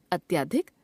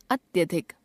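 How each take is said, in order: First: अत्यधिक with a long aa after ty, "atyaadhik"; wrong pronunciation. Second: Said in the usual way. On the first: Shown as a demonstration. Teacher showing an a-vowel error, अत्यधिक mispronounced as "atyaadhik". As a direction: stretch the middle vowel of अत्यधिक, rising at the end. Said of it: "अशुद्ध". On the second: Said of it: "शुद्ध".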